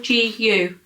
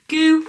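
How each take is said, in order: First: The name is spelled out letter by letter. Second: The name is said as one word.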